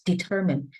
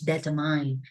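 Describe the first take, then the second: First: The stress is on the middle syllable. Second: The stress is not on the middle syllable. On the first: The speaker calls it right. "the syllable stands in the middle" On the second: The speaker calls it wrong. "Jam has her own way to pronounce this word"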